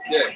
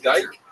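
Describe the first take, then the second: First: The vowel sounds like 'ih', rhyming with 'kick'. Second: The vowel sounds like 'eye', rhyming with 'bike'. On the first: This is how it is said here. "So I hear they pronounce it Dick" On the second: This is how it is said where the speaker was born.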